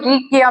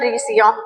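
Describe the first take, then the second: First: The middle consonant is a k sound. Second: The middle consonant is an s sound. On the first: Some people say it this way. "कोई रीकिया भी बोलते हैं" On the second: This is the accepted pronunciation. "Pronunciation सही है इसका"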